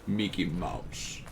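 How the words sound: It is said in a German accent. "Germans say Mickey Mouse... they say Mickey Mouse"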